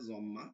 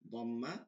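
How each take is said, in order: First: The word begins with a z sound. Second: The word begins with a d sound.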